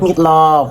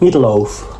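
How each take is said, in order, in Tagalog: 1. Ito ay binibigkas sa Vietnamese accent. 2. Ito ay binibigkas sa American accent. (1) "pag galing Vietnam?" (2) "so pag galing Amerika?"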